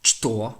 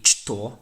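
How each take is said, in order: First: The word begins with a ch sound. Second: The word begins with a ch sound.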